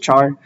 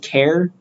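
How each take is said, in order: First: The word is pronounced like char. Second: The word is pronounced like care. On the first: This is the pronunciation the speaker learned and uses. "I'm just going to read it as char" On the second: Some people use this pronunciation. "Some people pronounce it as care"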